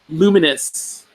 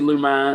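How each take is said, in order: First: The name is said in an ordinary pronunciation. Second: The name is said in a mock Kentucky pronunciation.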